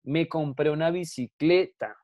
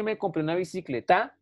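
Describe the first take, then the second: First: "bicicleta" stretched on CLE, then falling on TA; stress on CLE. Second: "bicicleta" wrongly stressed on its last syllable, bicicleTÁ; misplaced final stress. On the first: Teacher gives the correct example, "bicicleta" stressed on CLE. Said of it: "Yo digo". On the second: Teacher demonstrates the wrong way to class, "bicicleta" stressed on TA. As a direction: end on a rising, stressed TA in "bicicleta". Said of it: "Yo no digo eso". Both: Shown as a demonstration.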